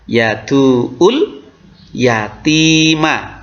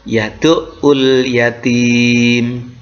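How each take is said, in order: First: The phrase ends with a vowel sound. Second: The phrase ends with a consonant sound.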